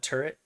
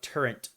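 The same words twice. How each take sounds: First: It ends in a plain t, no n sound. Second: An n sound comes before the final t. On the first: The speaker calls it right. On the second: The speaker calls it wrong.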